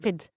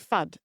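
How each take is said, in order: First: The vowel is a short 'ih' sound. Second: The vowel is an 'uh' sound. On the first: The speaker calls it right. "it's more like fid" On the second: The speaker calls it wrong. "she'll say fud instead of food"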